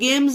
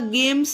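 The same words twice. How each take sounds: First: The word ends with a z sound. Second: The word ends with an s sound. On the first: The speaker calls it right. "तो गेम्स हो जाएगा" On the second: The speaker calls it wrong. "गेम्स नहीं होगा ये"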